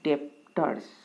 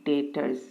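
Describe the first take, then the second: First: The b sound is pronounced in the word. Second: The b sound is left out of the word. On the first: The speaker calls it wrong. "Some of you might pronounce it as debtors" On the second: The speaker calls it right. "but actually it is debtors. B is silent"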